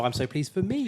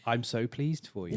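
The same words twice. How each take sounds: First: High, amused delivery with "me" lifted at the end; joking self-congratulation, laugh in the voice, punch "me"; stress on ME. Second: Voiced delight for someone else, stress landing on "you"; "you" as the focus, falling at the end. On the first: Acted. Joking flip of the previous line. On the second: Voiced reaction, contrasted with next take.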